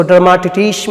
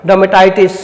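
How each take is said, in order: First: "डर्माटिटिस" misread with "टिटिस" in place of "टाइटिस"; wrong pronunciation. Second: "डर्मेटाइटिस" with a clear "टाइ" like tie; correct pronunciation. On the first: Teacher warns against a misreading, "डर्माटिटिस" with tee for tie. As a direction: say "डर्माटिटिस" with short tee sounds, no "टाइ". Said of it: "मत पढ़िएगा". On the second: Teacher models the right reading, "डर्मेटाइटिस" with tie sound. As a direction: say "डर्मेटाइटिस", third syllable rhyming with tie. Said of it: "इसको डर्माटिटिस मत पढ़िएगा". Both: Shown as a demonstration.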